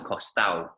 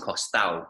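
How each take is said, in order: First: The d sound in the middle is dropped. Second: The d sound in the middle is dropped.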